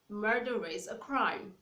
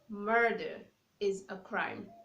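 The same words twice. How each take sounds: First: The R is linked into the following vowel. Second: The R is not linked to the following vowel.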